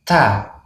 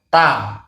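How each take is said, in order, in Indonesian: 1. Konsonan dilepas dengan hembusan napas. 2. Konsonan dilepas tanpa hembusan napas. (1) "Ada hembusan anginnya ya. Hamas namanya" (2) "tanpa hembusan angin, maka itu tidak benar"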